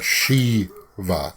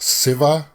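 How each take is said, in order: First: The name begins with an sh sound. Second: The name begins with an s sound. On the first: This is how the speaker's own people say it. "we would pronounce that Shiva" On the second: This is how the film's speakers say it. "I've heard it pronounced Siva instead of sh. sh there's no sh sound"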